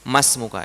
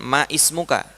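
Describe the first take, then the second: First: The two words are merged into one run. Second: The two words are said separately, vowel kept. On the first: The speaker calls it right. "Melebur begitu" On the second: The speaker calls it wrong. "kita nggak mengatakan ma ismuka"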